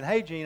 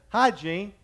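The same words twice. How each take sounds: First: Said in the usual way. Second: "Hi, Gene" with Hi pushed up high and loud so it sounds like hygiene; emphasized Hi, Gene. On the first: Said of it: "instead of saying". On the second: Shown as a demonstration. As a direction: lean hard on "Hi" in "Hi, Gene", louder and higher. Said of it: "And I'd kinda emphasize it".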